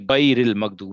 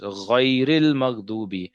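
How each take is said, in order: First: The first consonant is a hard g-like stop. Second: The first consonant is a soft gargled sound. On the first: The speaker calls it wrong. "which is wrong" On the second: The speaker calls it right. "So it's"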